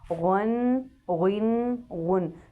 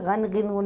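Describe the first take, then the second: First: The syllables are said heavy and full-mouthed. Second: The syllables are said light and thin. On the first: The speaker calls it right. "पुर अदा होते हैं" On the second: The speaker calls it wrong. "नहीं पढ़ना"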